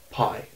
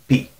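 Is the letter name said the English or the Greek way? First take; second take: English; Greek. First: The letter name is said the English way. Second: The letter name is said the Greek way. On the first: This is a name with no clear origin. The speaker calls it wrong. "not pi" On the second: This is the letter's actual name. The speaker calls it right. "it's actually P"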